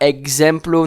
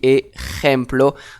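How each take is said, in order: First: The middle consonant is not a throaty jota sound. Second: The middle consonant is a throaty jota sound. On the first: The speaker calls it wrong. "ne dites pas exemplo" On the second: The speaker calls it right. "on dit ejemplo"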